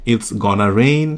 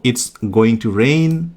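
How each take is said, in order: First: The words 'going to' are reduced to 'gonna'. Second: The words 'going to' are said in full. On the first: "গনাটাকে একটু bold করে দিই" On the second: "it's গোয়িং টু rain না বলে"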